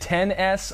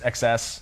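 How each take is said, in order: First: The X is read as the number ten. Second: The X is read as the letter X. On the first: "Is it ten S?" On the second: "I like saying X S because it's huge. Like a play on words"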